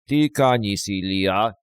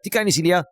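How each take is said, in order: First: It is said slowly, like his father. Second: It is said fast, like his mother.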